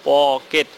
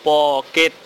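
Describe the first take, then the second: No difference in how they are said.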